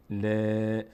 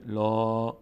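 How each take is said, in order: First: ل as a light, fronted long ae; thin laam. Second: لا as a dark, rounded long aa; full, heavy laam. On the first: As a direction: spread ل sideways and hold it. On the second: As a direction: open لا upward and hold it. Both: Shown as a demonstration. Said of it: "ببینید فرقش چیه؟".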